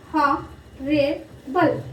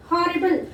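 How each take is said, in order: First: HORRIBLE in three very slow pieces, ho, rri, ble; syllable by syllable. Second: Said in the usual way. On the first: Shown as a demonstration. Teacher dividing the word for children, HORRIBLE split in three. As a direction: pause between each part of HORRIBLE, ho-rri-ble. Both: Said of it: "Three syllables".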